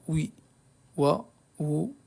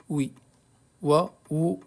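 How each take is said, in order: No difference in how they are said.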